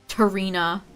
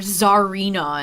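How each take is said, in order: First: The name starts with a hard T sound. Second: The name starts with a soft Z sound. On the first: This follows the spelling, which would upset people. "I should pr hard pronounce the T" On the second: This is how most players say it. "as everyone in V G C was saying the past week"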